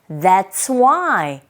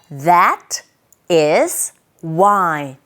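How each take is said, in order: First: That and is merge into one syllable. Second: Every word is said in full.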